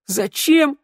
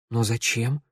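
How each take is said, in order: First: Very high, incredulous echo; mocking echo. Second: Understated, softly puzzled question; puzzled surprise. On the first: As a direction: throw the question back in a high mocking pitch. Shnyryala mocks the question, rolls eyes. (передразнивая, возмущённо) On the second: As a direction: ask in quiet bewilderment. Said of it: "удивилась Санда". (тихо, с удивлением) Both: A narrator's reading.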